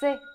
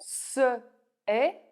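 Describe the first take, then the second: First: The first vowel drops, making one syllable. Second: Both vowels are said, in two syllables.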